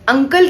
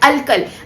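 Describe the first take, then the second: First: The word is pronounced clearly with an n sound. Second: The word is slurred with an l sound. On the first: "हम बोलते हैं ना अंकल" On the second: "clearly अगर हम नहीं बोलेंगे तो हम कैसे बोलेंगे"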